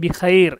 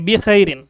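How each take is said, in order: First: The word ends without the final vowel ending. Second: The word ends with the full -in ending. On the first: This is the form used when pausing at the end. "ওয়াকফ করে পড়ি তখন লাস্টের হরকতটা তো উচ্চারণ করি না" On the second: This is the full base form of the word. "এটা হচ্ছে মূল শব্দ"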